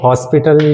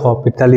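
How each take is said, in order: First: It begins with 'hos', with an s sound. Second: It begins with 'ho', with no s sound. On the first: "कई students इसको हॉस्पिटल या फिर हॉपिटल इस तरीके का बोलते हैं" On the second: "कई स्टूडेंट्स इसको हॉस्पिटल या फिर हॉपिटल इस तरीके का बोलते हैं"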